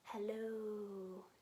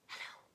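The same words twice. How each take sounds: First: It is said very slowly. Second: It is said very quickly.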